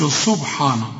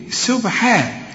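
First: سبحانه starting like a dark SAD; wrong heavy seen. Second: سبحان with thin S, fronted HEE; light seen. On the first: Teacher shows the mistake, heavy سبحانه. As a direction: mispronounce سبحانه with thick S and vowels. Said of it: "ما تقولش سبحانه". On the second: Teacher models the right way, light سبحان. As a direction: say سبحان higher, all letters light. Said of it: "فهنقول إيه". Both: Shown as a demonstration.

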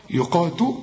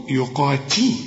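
First: "يقاتو" ending in "tu"; wrong rounded ta. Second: "يقاتي" ending in a clear "tee"; ta with kasra. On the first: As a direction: end "يقاتو" on oo, as a mistake. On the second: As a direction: spread the vowel after t in "يقاتي". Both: Shown as a demonstration. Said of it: "التاء إنها مكسورة".

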